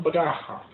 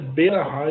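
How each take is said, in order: First: The first two consonants run together without a vowel. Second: A full vowel follows the first consonant. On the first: The speaker calls it wrong. "e não Brahá" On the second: The speaker calls it right. "A forma correta é Berahá"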